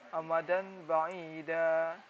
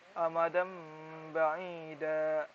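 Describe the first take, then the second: First: The nasal before b is an n sound. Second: The nasal before b is an m sound. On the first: The speaker calls it wrong. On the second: The speaker calls it right. "yang benar itu"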